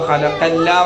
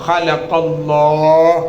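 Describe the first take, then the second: First: It ends with a thin 'la' sound. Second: It ends with a full 'Allah' sound. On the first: The speaker calls it wrong. "ഖലഖല്ലാ പറയോ? ഇല്ല" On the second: The speaker calls it right. "അള്ളാഹ് എന്നാ പറയാ"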